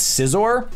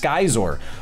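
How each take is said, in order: First: The name begins with a 'sigh' sound. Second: The name begins with a 'sky' sound. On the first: The speaker calls it wrong. "A lot of imposters are running around saying it's" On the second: The speaker calls it right. "that is actually the correct pronunciation"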